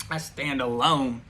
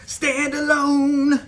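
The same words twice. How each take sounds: First: Said in the usual way. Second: Dramatic high echo. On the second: Acted. Defying the coven, a drawn-out high proud echo. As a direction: stand alone, much higher, louder and slow. Repeats the phrase for emphasis.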